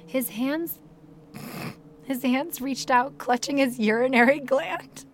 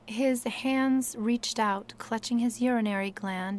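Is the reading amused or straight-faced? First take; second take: amused; straight-faced. First: It is read with audible amusement. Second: It is read seriously, without laughing.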